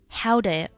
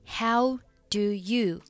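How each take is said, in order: First: "Do you" is reduced to one weak syllable. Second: "Do you" is said in full, clearly.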